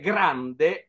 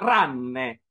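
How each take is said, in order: First: It starts with a g, with nd in the middle. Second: It drops the g, with nn in the middle. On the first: This is the standard Italian form. "invece di dire grande" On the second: This is the Sicilian dialect form. "diceva ranne"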